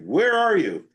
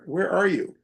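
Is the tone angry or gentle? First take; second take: angry; gentle. First: It is said in an angry, yelling tone. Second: It is said in a gentle, inviting tone.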